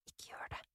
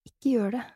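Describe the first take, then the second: First: "ikke gjør det" breathed out in a voiceless whisper. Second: Said in the usual way. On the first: A narrator's reading. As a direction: hiss it under your breath, warning yourself. Torn, talking herself out of it. ("ikke gjør det" hvisket uten stemme)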